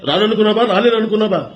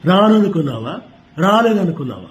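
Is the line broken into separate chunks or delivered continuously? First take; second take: continuous; broken chunks. First: The line flows on without cuts between phrases. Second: The line is broken up with clear cuts between phrases. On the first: "Balakrishna గారికి అయితే అది ఉండదు" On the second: "ఆయన cut cut చేస్తారు"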